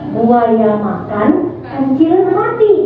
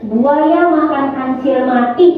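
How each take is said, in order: First: There is a pause after 'makan'. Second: There is no pause after 'makan'. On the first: The crocodile ate, and then the mouse-deer died. "Kalau begini" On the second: The crocodile ate a mouse-deer that was dead. "Kalau di sini"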